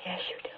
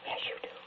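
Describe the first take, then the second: First: Said in the usual way. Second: Knowing whisper. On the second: Acted. Insisting he understands her meaning.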